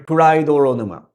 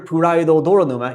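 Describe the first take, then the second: First: The words blend, with the shared syllable said once. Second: Both words are said separately, repeating the syllable. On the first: The speaker calls it right. "you hear puraidoronuma" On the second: The speaker calls it wrong. "You don't hear puraido doronuma"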